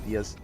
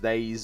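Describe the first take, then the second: First: It is said as two syllables, like 'die-us'. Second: It is said as one syllable, like 'days'. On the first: The speaker calls it right. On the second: The speaker calls it wrong.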